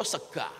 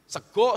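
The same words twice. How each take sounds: First: SEGA ending in open a, low and soft; Ngapak a. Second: SEGO ending in a round o; Javanese o. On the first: Preacher giving a Ngapak example, "sega" with final a. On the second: Preacher giving a Javanese example, "sego" with final o. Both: Shown as a demonstration. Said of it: "Kalau Jawa, oh, ngapak, ah".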